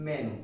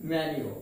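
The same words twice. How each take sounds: First: মেনু said as "me-nu"; plain "-nu" in মেনু, no y-glide; everyday Bengali মেনু, "me-nu"; common mispronunciation. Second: মেনু said as "men-yu"; corrected pronunciation. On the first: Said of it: "কিন্তু আমরা এর উচ্চারণ করে থাকি". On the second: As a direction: put a y-glide in মেনু, "men-yu". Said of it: "মেনু না বলে কি বলবো?". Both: Shown as a demonstration.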